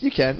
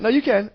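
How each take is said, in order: First: Said in the usual way. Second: Pitched well up, insisting; "you can" jumps high, then falls; emphatic high insistence. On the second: Real, not acted. Insisting to the co-host, emphatic high voice. Same words repeated more emphatically.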